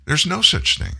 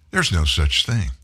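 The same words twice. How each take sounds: First: "no" hit higher and falling; stress on no. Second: Said in the usual way. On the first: Shown as a demonstration. Host repeats it for his listeners, stress on "no". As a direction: lean hard on "no".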